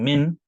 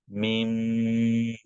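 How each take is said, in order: First: The word ends with a plain n sound. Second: The word ends with a nasal m sound. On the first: The speaker calls it wrong. "instead of saying min" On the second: The speaker calls it right. "you're going to say meme"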